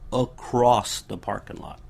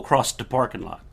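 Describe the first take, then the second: First: Across ends with a plain s sound. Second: Across ends with an extra t sound. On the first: The speaker calls it right. "No, it's across the parking lot" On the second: The speaker calls it wrong. "with a T"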